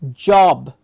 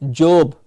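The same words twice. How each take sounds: First: The vowel is a clear, open-mouthed aw. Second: The vowel is not an open aw sound. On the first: The speaker calls it right. "Clear aw, open mouth to say aw" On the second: The speaker calls it wrong. "we will hear them call it job"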